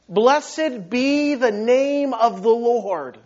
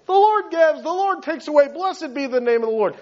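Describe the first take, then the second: First: Slow, drawn-out declaration of worship; heartfelt conviction. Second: Higher-pitched, tossed-off pious recital; glib recitation. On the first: Job worshipping after losing everything, slow and heartfelt. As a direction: stretch each word, fully meaning it. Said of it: "Job meant it. Job believed it". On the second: Preacher mimicking his own easy piety, glib. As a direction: rattle it off like easy words. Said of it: "not that powerful coming from maybe my lips". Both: Retold or imitated.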